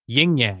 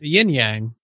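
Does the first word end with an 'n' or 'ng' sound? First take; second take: ng; n. First: The first word ends with an 'ng' sound. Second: The first word ends with an 'n' sound. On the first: The speaker calls it right. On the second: The speaker calls it wrong. "Not Yin Yang"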